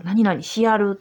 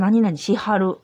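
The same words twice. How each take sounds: First: Osaka dialect. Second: Kyoto dialect. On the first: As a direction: quote the Osaka dialect form しやる. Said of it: "大阪弁の一つなんですよ". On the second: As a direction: quote the Kyoto dialect form しはる. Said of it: "京都弁で言うと". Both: Shown as a demonstration.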